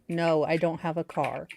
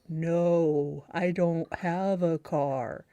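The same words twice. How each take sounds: First: It is said at normal speed. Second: It is said slowed down.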